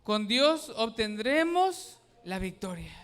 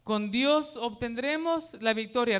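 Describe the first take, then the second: First: Loud, slow unison recitation; repeating with congregation. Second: Louder, slow, Dios stressed; preacher leading a chant; declaiming the verse. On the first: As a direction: say it together, firmly. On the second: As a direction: proclaim it for them to repeat. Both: Shown as a demonstration. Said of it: "Repítalo conmigo".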